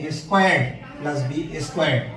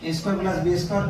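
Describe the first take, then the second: First: The word 'squared' ends with a d sound. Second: The word 'square' ends without a d sound. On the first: The speaker calls it right. "তবে এই উচ্চারণটা হবে" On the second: The speaker calls it wrong. "অবশ্যই আমরা এটা এইভাবে শিখে আসছি"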